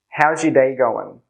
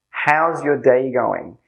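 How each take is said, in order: First: The phrase is said very quickly, words running together. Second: The phrase is said at a careful, unhurried pace.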